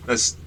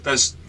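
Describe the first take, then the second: No difference in how they are said.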